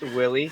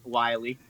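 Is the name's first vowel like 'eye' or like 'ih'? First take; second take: ih; eye. First: The first vowel sounds like 'ih'. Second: The first vowel sounds like 'eye'. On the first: The speaker calls it right. "actually, Brian, it's Willie" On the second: The speaker calls it wrong. "I referred to him as Matt w- Wiley"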